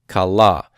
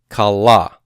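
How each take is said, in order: No difference in how they are said.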